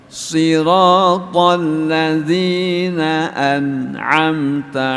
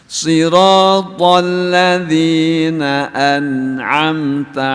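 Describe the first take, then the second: Both takes have the same delivery.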